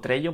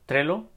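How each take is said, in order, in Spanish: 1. La doble L se dice con sonido Y. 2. La doble L se dice como L normal.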